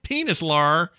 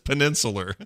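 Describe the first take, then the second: First: The word starts like 'penis', with one n. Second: The word starts like 'penin', with n twice. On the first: The speaker calls it wrong. "Like I was trying to do it phonetically. It's not. It's wrong" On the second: The speaker calls it right. "it's peninsular"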